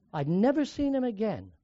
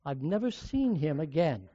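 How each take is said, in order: First: Second take pressing on never; stress on never. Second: Said in the usual way. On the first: Shown as a demonstration. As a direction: lean on the word never the second time. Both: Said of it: "repeated with never stressed".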